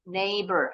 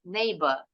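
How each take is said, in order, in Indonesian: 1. R di akhir diucapkan. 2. R di akhir diam. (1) "Hanya huruf R-nya aja" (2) "Kalau British English"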